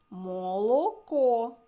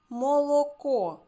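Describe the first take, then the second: First: Молоко said slowly and loudly, every syllable clear; loud slow teacher articulation; slow clear word. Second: Молоко repeated higher and louder; bright emphatic repeat for children; loud clear repeat. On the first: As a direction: stretch out Молоко for little listeners. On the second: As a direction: lift Молоко up high so every sound carries. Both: Shown as a demonstration. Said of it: "Немає звука «і»".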